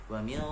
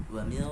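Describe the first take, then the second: The two takes are said the same way.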